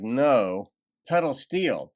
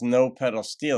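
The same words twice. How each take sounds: First: There is a pause after "no". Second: It runs on with no pause after "no".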